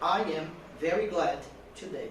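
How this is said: It is broken into small chunks with pauses.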